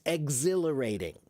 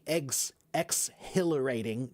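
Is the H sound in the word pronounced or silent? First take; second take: silent; pronounced. First: The H sound is silent after ex. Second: The H sound is pronounced after ex. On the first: The speaker calls it right. "No, it's exhilarating. The H is kind of silent" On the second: The speaker calls it wrong. "We don't say ex exhilarating"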